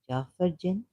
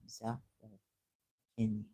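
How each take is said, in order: First: The name starts with a J sound. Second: The name starts with a Z sound. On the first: The speaker calls it wrong. "I just pronounce it like the Jafar" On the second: The speaker calls it right. "Ah, it's Zafar Jinn"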